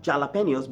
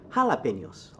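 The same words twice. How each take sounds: First: "jalapenos" starting with English J; wrong J sound. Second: "jalapenos" starting with an H sound. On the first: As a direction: say "jalapenos" with J as in jam. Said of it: "Not jalapenos". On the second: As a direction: say "jalapenos" as ha-la-PEN-yos. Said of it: "but jalapenos". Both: Shown as a demonstration.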